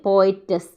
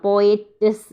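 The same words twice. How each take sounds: Both takes have the same delivery.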